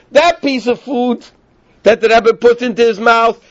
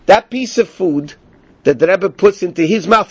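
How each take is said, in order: First: "that piece of food" slow and high; slow emphatic repeat. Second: Said in the usual way. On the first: Shown as a demonstration. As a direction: stress "that piece of food" slowly. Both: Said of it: "In other words".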